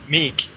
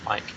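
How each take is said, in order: First: The vowel is a long ee sound. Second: The vowel is a long eye sound. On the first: The speaker calls it wrong. "was calling him Meek" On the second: The speaker calls it right. "It is pronounced as Mike"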